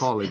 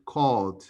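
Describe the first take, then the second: First: The -ed ending is sounded as an extra syllable. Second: The -ed ending adds no extra syllable. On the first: The speaker calls it wrong. "we don't say" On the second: The speaker calls it right. "we say called"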